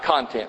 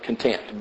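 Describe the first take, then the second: First: The stress is on the first syllable. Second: The stress is on the second syllable. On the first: The things contained in something. The speaker calls it wrong. "Not content" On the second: Being satisfied with what one has. The speaker calls it right. "but content. Be content with the things that you have"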